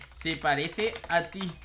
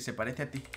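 First: Lento y recalcado. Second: Said in the usual way. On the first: Acted. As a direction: deliver the insult slowly, piece by piece. Lo repite despacio al escribirlo. (despacio y recalcado, con sorna)

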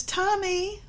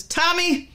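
First: High sing-song call of Tommy, rising at the end; a mother lilting "Tommy" upward like a gentle sing-song call; mother calling sweetly. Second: High, firm "Tommy" falling hard at the end; a mother snapping "Tommy" downward as a warning; mother's warning. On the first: A mother calling her son sweetly, a high rising sing-song. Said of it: "the emphasis in the tone of voice". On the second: A mother warning her child by name, high, firm and falling. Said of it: "has a different meaning than if she says". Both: Shown as a demonstration.

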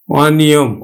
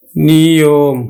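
First: Said in the usual way. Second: অনিয়ম very slowly as অ... নিয়ম; slow, split অনিয়ম; open vowel, syllabified. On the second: Shown as a demonstration. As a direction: hold the open অ of অনিয়ম, then a long নিয়ম. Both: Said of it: "অটা অ এর মতোই উচ্চারণ".

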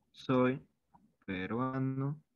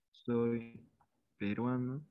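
Both takes have the same delivery.

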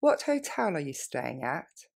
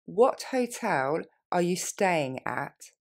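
First: Quick natural pace; faster. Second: What hotel are you staying at, slowly and clearly; slow it down for the learner. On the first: Teacher modelling for students, quick natural. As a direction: run it together naturally. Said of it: "Plus rapidement". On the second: Teacher modelling for students, slow. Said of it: "Plus lentement". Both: Shown as a demonstration.

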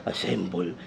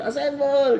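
First: Soft, much lower command that barely carries; quiet command. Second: Much higher, fuller call to assemble; louder command. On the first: Retold or imitated. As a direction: say it under your breath, too softly. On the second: Shown as a demonstration. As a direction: call it out so the whole team hears. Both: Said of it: "Di ba dapat nilakasan niya yan?".

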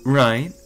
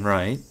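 First: Louder, pressing Right with rise; insistent right. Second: Said in the usual way. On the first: Acted. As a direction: push the question hard. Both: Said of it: "speaking unbelievably dismissively".

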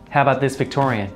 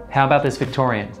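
The two takes are said the same way.

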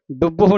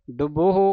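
First: ਡੁੱਬਹੁ squeezed to "dubb-ho"; wrong clipped middle. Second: ਡੁੱਬਹੁ as "dub-o-ho"; full middle vowel. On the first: Teacher shows what to avoid, ਡੁੱਬਹੁ squeezed to "dubb-ho". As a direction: drop the vowel between b and h in ਡੁੱਬਹੁ. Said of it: "ਨਹੀਂ ਕਹਿ ਦੇਣਾ". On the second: Teacher shows the joined reading, ਡੁੱਬਹੁ as "dub-o-ho". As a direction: sound the rounded vowel between b and h in ਡੁੱਬਹੁ. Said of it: "ਔਂਕੜ ਵੀ ਬੋਲਣਾ". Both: Shown as a demonstration.

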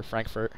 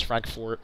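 First: "Frankfurt" with an ER in the second syllable; Frankfurt as "Frank-furt". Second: "Frankfurt" with a full OR in the second syllable; Frankfurt as "Frank-fort". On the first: Unsure of the name, "Frankfurt" tried as FRANK-fert. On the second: Unsure of the name, "Frankfurt" tried as FRANK-fort. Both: Shown as a demonstration. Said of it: "not sure if it's Frankfurt or Frankfurt".

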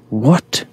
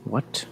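First: Loud rising "what"; loud disbelief. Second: Quiet disbelief. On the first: Gamer startled by the game, loud disbelief. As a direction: burst out with a sharp upward question. Same word repeated far louder. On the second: Gamer puzzled by the game, quiet disbelief. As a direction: say it under your breath. Puzzled first reaction, then louder. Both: Real, not acted.

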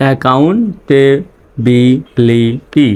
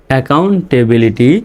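First: Very slow "accountability", gaps between syllables; teacher's slow sounding-out. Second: Said in the usual way. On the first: Shown as a demonstration. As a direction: break "accountability" into a-ccoun-ta-bi-li-ty. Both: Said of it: "reading পড়ে আসি".

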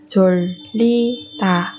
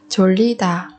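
First: 졸리다 slowly, a pause between syllables. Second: Said in the usual way. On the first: Shown as a demonstration. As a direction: break 졸리다 into separate, drawn-out syllables. Teacher models word syllable by syllable.

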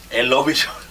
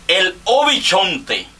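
First: Said in the usual way. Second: Loud, higher and slow stadium-style name call; mock ring announcer intro. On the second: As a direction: stretch the name out like a ballpark announcer. Announces next batter like ballgame.

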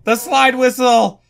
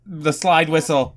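First: Louder, higher outcry on "slide whistle"; raised, incredulous exclamation; exclaiming. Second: Said in the usual way. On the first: Real, not acted. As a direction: call out "slide whistle" in disbelief. Repeats it as an outcry.

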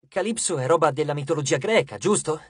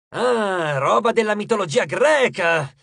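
First: Said in the usual way. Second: Louder, higher burst of relish; eager coach. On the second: A narrator's reading. Coach hears of a Greek myth foe, excited. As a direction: pounce on the news with excitement.

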